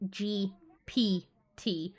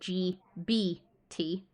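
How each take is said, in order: First: The middle letter has a P sound. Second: The middle letter has a B sound. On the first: The speaker calls it wrong. "not P for papa" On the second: The speaker calls it right. "as in B for ball"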